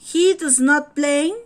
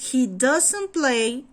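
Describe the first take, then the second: First: Does not is said as two full words. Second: Does not is contracted into one word.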